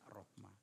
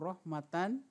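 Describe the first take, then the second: First: The word ends with an h sound. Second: The word ends with a -tan syllable. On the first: This is how it is read when pausing. The speaker calls it right. "bacaannya rohmah" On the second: This is how it is written. The speaker calls it wrong. "walaupun tulisannya itu rohmatan"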